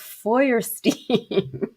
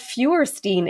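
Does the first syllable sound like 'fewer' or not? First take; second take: not; fewer. First: The first syllable does not sound like 'fewer'. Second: The first syllable sounds like 'fewer'. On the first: The speaker calls it right. "it's Feuerstein" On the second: The speaker calls it wrong. "because it's not Feuerstein"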